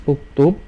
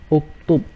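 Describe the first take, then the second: Both takes have the same delivery.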